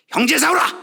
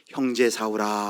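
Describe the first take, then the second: First: It is said in a harsh, startling voice. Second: It is said in a warm, loving voice. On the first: The speaker calls it wrong. "깜짝 놀라셨죠?" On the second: The speaker calls it right. "친밀한 음성으로, 사랑하는 음성으로"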